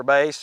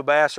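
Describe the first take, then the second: First: "Bass" rhyming with face; "Bass" sounding just like "base"; vocal pronunciation. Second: "Bass" rhyming with pass; "Bass" with the a of "cat"; fish pronunciation. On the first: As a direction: say "Bass" like the vocal range, long a. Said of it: "or is it the vocal". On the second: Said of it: "is it the fish". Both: Shown as a demonstration.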